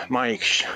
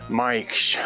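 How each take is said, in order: The two takes are said the same way.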